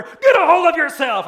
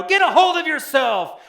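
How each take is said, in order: First: Even louder, higher frantic bellow; harder shout. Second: Much higher, loud yell at a panicking woman; frantic shout. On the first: Next passenger shaking her harder, louder frantic bellow. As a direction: yell it with more force. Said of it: "he shakes her harder". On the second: Flight attendant shaking a panicking passenger, frantic yell. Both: Retold or imitated.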